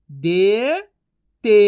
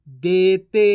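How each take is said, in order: First: दे rising long, pause, ते; syllable by syllable. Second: Said in the usual way. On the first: Shown as a demonstration. Teacher sounding out for learners, syllable by syllable. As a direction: split देते into two drawn-out sounds. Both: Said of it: "एक एक अक्षर का उच्चारण".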